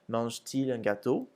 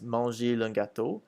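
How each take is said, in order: First: A T sound separates the verb and pronoun. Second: The verb and pronoun run together with no T. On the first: The speaker calls it right. "we add a T" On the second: The speaker calls it wrong. "if we didn't, it would sound like this"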